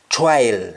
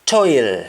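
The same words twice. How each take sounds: First: "toil" said TWILE; "toil" with tw and an eye vowel; Jamaican wa form. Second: "Toil" said TOYL; "Toil" with a round oy vowel; English oy form. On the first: Teacher showing the Jamaican change, "toil" as twile. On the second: Teacher giving the English word first, "Toil" as toyl. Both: Shown as a demonstration. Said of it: "O I becomes wa".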